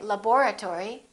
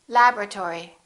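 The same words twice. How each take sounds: First: Every syllable of the word is pronounced. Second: One vowel is dropped, shortening the word. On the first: The speaker calls it wrong. "Don't say laboratory" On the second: The speaker calls it right. "say laboratory"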